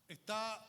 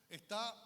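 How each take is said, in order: Both takes have the same delivery.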